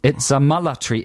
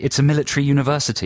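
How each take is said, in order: First: Attempted South African vowels on military; South African accent, military as "mullatry"; phonetic South African accent. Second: Said in the usual way. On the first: Shown as a demonstration. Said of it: "sound perfectly South African".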